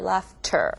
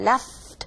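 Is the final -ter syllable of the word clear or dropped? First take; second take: clear; dropped. First: The final -ter syllable is clearly pronounced. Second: The final -ter syllable is dropped, sounding like 'left'. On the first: The speaker calls it right. "like that" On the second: The speaker calls it wrong. "ter 나오기 힘들잖아요. Left, left 이렇게 되는데"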